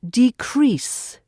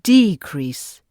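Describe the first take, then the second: First: The stress is on the second syllable. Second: The stress is on the first syllable. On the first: It is used as a verb. "As a verb, it's decrease ... For verbs, stress is often on the second syllable" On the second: It is used as a noun. "As a noun, it's decrease. ... for nouns, stress is usually on the first syllable"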